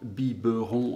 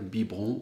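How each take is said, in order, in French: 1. Le mot est prononcé en trois syllabes. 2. Le mot est prononcé en deux syllabes. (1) "en trois syllabes" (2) "en deux syllabes"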